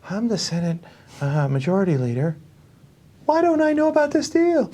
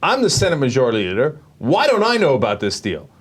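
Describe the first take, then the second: First: It is said in a put-on, imitating voice. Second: It is said in an ordinary, natural voice. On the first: The speaker calls it right. "Here's how he actually said it" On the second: The speaker calls it wrong. "there's no way he said it like that"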